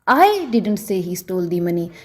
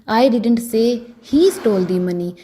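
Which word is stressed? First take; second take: I; he. First: The stress is on the word I. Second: The stress is on the word he. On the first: "अगर मैं आई पर जोर देकर बोलूं" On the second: "अगर मैं ही पर जोर डालकर बोलूंगी"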